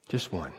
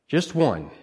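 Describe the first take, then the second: First: Almost under the breath, "Just one." said much softer; hushed repeat. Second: Said in the usual way. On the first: Shown as a demonstration. Preacher to congregation, hushed emphasis. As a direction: drop the voice right down on "Just one".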